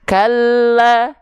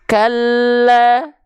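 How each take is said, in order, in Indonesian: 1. Bunyi l yang ganda hanya ditekan, dibaca pendek. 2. Bunyi l yang ganda hanya ditekan, dibaca pendek.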